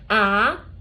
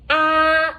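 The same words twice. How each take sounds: First: The pitch rises from middle to high. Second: The pitch stays high and level. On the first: "second one, raise your tone" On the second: "that is the first one. It didn't change anything"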